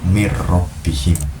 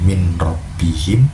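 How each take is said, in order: First: The n merges into a doubled r sound. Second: The n is pronounced clearly before the r.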